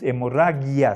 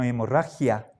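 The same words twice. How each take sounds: First: The g in the last syllable sounds soft. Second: The g in the last syllable sounds harsh. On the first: This is the Latin way of reading it. The speaker calls it wrong. "Aquí en español no es hemorragia" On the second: This is the Spanish way of reading it. The speaker calls it right. "sino hemorragia"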